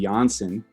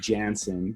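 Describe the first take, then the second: First: The name is said with German sounds. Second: The name is said with English sounds. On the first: This is the original form of the name. "that's like the German version of it" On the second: This is the form the family uses. "the correct pronunciation would be Jansen"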